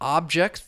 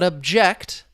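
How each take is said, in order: First: The stress is on the first syllable. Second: The stress is on the second syllable. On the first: It is a noun for a thing you can touch. "the stress is on that first syllable now that it's a noun" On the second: It is a verb meaning to express opposition. "You see the stress on that second syllable"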